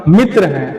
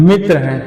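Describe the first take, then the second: The two takes are said the same way.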